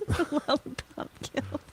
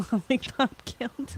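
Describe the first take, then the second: First: Higher munchkin-style repeat. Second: Munchkin voice. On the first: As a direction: squeak it like a munchkin. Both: Pretend. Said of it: "Lollipop Guild munchkin quote".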